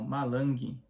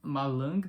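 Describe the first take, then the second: First: It is said with a Brazilian accent. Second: It is said with a non-Brazilian accent. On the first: The speaker calls it right. "com um sotaque brasileiro mesmo" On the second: The speaker calls it wrong. "malang não"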